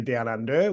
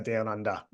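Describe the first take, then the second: First: Down under said slowly, with an r-colored er at the end of under; American accent. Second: Down under with under ending in a short ah, no r; Australian accent. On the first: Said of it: "whereas you'd say". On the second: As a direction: say down under like an Aussie. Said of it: "we say". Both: Shown as a demonstration.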